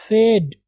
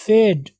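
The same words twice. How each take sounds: First: Second फेड with a short "e", like "fed"; wrong pronunciation. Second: फेड with a long "ay"; correct pronunciation. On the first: Teacher showing what not to say, फेड as "fed". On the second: Teacher correcting learners, फेड with a long vowel. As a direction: stretch the vowel in फेड, like "fayd". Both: Shown as a demonstration. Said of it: "not फेड".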